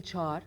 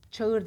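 First: Çağır as one long "çaar"; spoken form. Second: Loud Çağır as "ça-ır"; spelling pronunciation. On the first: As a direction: drop the ı in çağır. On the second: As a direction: sound out Çağır with an audible ı. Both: Shown as a demonstration. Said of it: "Çağır değil".

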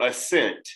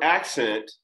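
First: Assent said as uh-SENT, weak first syllable. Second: Accent said as AK-sent, stress on the first syllable; accent, open first vowel, stressed up front. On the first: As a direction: say assent with a light schwa, stress on SENT. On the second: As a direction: say accent with a clear short a, AK-sent. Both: Shown as a demonstration. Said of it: "two words that seems to sound the same".

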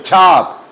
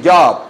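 First: "job" with a hard ch-like start; drawn-out "job" opening on a crisp ch sound; correct "job". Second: Spanish-style y sound opening "job"; wrong "job". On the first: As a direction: say "job" slowly as "chap". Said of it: "se dice job". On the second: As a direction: begin "job" like "yab". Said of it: "No se dice job". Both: Shown as a demonstration.

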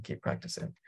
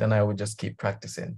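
First: Whispered repeat; whispered echo, keep practicing. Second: Said in the usual way. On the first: Real, not acted. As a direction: breathe it out under your voice.

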